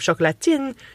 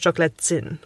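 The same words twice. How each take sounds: First: The t before i is a plain t. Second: The t before i sounds like ts. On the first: "instead of chocolatine" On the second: "you pronounce them as more like T and Z"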